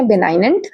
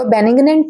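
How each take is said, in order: First: Benignant as be-NINE-unt; taught pronunciation. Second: Benignant misread as ben-ig-nant; mispronunciation. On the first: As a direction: say benignant with a long "eye" and silent g. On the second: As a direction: say benignant with a short i and sounded g. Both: Shown as a demonstration. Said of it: "इसको benignant नहीं पढ़ेंगे".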